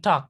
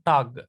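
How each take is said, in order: First: The word ends with a k sound. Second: The word ends with a g sound. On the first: The speaker calls it right. "you have to pronounce it as K" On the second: The speaker calls it wrong. "not Guten Tag"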